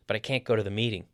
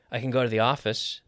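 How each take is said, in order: First: Quick line, CAN'T kept full; stress on CAN'T. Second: CAN as a weak "kn", beat on GO; reduced CAN. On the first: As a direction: mark CAN'T amid the quick words. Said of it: "we stress the negative". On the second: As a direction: slide over CAN to GO. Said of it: "we don't normally stress the affirmative". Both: Shown as a demonstration.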